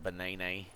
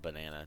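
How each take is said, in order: First: The word is pronounced in an unusual, quirky way. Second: The word is pronounced in the ordinary, common way. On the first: This is a personal way of saying it. "I like calling them bananas" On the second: This is how most people say it. "banana to everyone else other than me"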